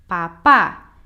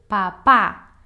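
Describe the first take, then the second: The two takes are said the same way.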